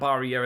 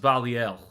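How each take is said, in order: First: The name is said with an English accent. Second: The name is said with a French Canadian accent. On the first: The speaker calls it wrong. "it's not Barriere" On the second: The speaker calls it right. "that level of French Canadian accent"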